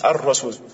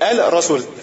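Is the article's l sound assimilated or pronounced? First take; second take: assimilated; pronounced. First: The l is absorbed into a doubled r. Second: The l is sounded separately before the r. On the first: The speaker calls it right. "Comme c'est le cas ici" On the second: The speaker calls it wrong. "on retourne sur ce qu'on était"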